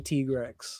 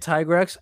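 First: The name is pronounced in a Japanese way. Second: The name is pronounced in an English way. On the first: This is how the speaker says it, learned from someone else. "I say Tigrex ... that's Japanese pronunciation" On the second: This is how the other person says it. "you say Tigrex"

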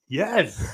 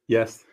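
First: It is said with clear enthusiasm. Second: It is said flatly, without enthusiasm.

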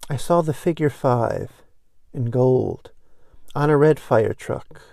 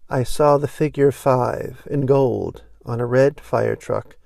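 First: It is read at a slower pace. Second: It is read at a faster pace.

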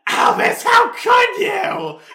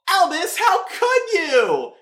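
First: It is said loudly, almost screaming. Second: It is said quietly, without screaming.

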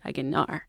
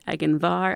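First: No v sound is heard in the middle. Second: A v sound is heard in the middle. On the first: This is the speaker's northern pronunciation. "I would say" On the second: This is the listener's regional pronunciation. "you would say"

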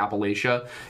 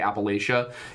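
First: The word is said the northern way. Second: The word is said the northern way.

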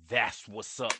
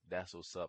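First: It is said with strong excitement. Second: It is said flatly, without enthusiasm.

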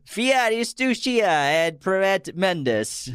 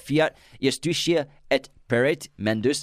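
First: It is read in a put-on Italian accent. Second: It is read in a plain, ordinary accent. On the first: "Just do it with an Italian accent" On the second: "my Latin's a little scratchy nowadays"

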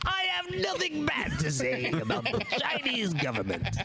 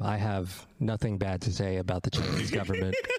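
First: It is said in a put-on villain voice. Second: It is said in the speaker's ordinary voice.

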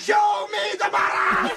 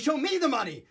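First: It is yelled loudly. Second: It is said at normal volume.

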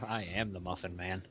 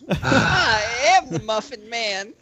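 First: It is said in his normal voice. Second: It is said in a put-on character voice.

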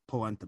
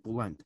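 First: It is said as standard polenta, with a final vowel. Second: It is said as bulend, with a u and no final vowel.

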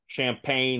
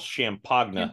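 First: The word is said in the ordinary way. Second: The word is said in an unusual, altered way. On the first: The speaker calls it right. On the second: The speaker calls it wrong.

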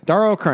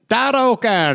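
First: It is said in the speaker's usual accent. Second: It is said in an Irish accent.

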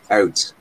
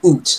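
First: The vowel glides like 'ow'. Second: The vowel sounds like a long 'oo'. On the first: The speaker calls it right. "It's out" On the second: The speaker calls it wrong. "It's not oot"

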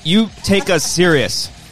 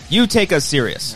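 First: It sounds like a question. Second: It sounds like a command.

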